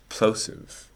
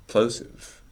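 Both takes have the same delivery.

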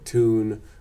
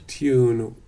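First: It starts with a plain 't', no 'y'. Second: It starts with a 't' followed by 'y'.

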